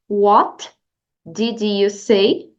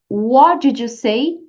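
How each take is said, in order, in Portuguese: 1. O T no final de 'what' é pronunciado. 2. O T no final de 'what' é omitido.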